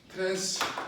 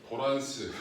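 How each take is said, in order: First: It is pronounced in an English-like way. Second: It is pronounced in a Japanese-like way. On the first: The speaker calls it right. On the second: The speaker calls it wrong.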